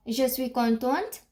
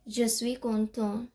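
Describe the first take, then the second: First: "contente" with an audible final T; feminine form, T sounded. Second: "content" with no T at the end; masculine form, silent T. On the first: Teacher telling female learners what to say, T sounded. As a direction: finish "contente" on a T. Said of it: "if you're a female". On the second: Teacher telling male learners what to say, T silent. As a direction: let "content" end on its nasal vowel. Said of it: "if you're a male". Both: Shown as a demonstration.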